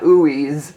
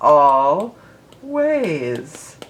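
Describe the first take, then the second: First: The first syllable sounds like 'oo'. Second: The first syllable sounds like 'all'. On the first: The speaker calls it wrong. "it's not ooeyes" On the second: The speaker calls it right. "It's all ways"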